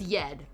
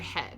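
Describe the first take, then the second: First: The word begins with a Y sound. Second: The word begins with an H sound. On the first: This is how the song pronounces it. "you pronounce it with a Y" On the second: This is the everyday pronunciation. "in real life you say"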